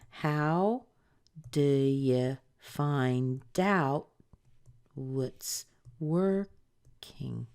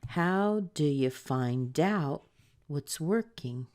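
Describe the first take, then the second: First: It is said slowly. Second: It is said at medium speed.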